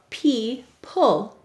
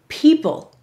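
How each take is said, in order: First: The word is split into separate, sounded-out parts. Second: The word is said as one smooth, normal word. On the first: This is a pronunciation used to help remember the spelling. "we will say to spell" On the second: This is how the word is normally spoken. "Go ahead and say people"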